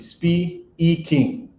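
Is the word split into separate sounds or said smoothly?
separated. The word is broken into separate sounds. The speaker calls it wrong. "you're not gonna say speaking"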